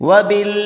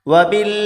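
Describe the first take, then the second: The two takes are said the same way.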